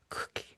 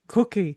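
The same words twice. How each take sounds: First: It is said softly under the breath. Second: It is said in a very deep voice.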